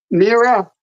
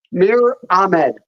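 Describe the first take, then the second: First: "Mira" in two syllables, ending in a; tentative repeat of "Mira" with the extra a; mistaken name pronunciation. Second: "Mir Ahmed" with one-syllable Mir; copied name pronunciation. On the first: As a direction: attempt the name as "Mira", MEE-ra. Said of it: "not Mira". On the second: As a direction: repeat "Mir Ahmed" without an a after Mir. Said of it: "It's Mir Ahmed". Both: Real, not acted.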